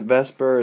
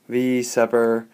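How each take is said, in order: First: It is said as one two-syllable word. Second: The letter V is said separately before 'Sepper'. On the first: This is the speaker's habitual casual pronunciation. "I pronounce it Vesper" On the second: This is the technically proper pronunciation. "It's technically"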